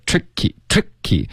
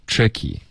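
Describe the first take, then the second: First: "tricky" punched on "trick", weak "ky"; top-heavy stress. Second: "tricky" eased, both syllables flowing evenly; relaxed stress. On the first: Retold or imitated. Teacher imitating the student's stress, front-heavy "tricky". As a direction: overdo the first syllable of "tricky". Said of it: "有一点就是头重脚轻了". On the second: Shown as a demonstration. Teacher showing the fix, relaxed "tricky". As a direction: let "tricky" go without punching "trick". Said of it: "这样放松".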